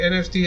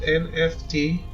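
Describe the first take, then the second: First: It is run together as a single word. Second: Each letter is said separately. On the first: "say N F T as one word" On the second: "not N F T"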